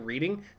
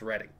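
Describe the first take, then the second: First: The first vowel sounds like in 'reed'. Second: The first vowel sounds like in 'red'. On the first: It is the ordinary word for looking at text. The speaker calls it wrong. "even though it reads like reading" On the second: It is the name of the town in Pennsylvania. The speaker calls it right. "That's actually pronounced Reading"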